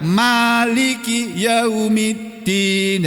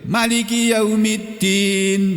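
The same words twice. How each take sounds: First: The vowel after the m is long. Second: The vowel after the m is short. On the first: It means owner of the Day of Judgement. "Kalau dibaca panjang" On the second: It means king of the Day of Judgement. "atau ini dibaca pendek juga boleh"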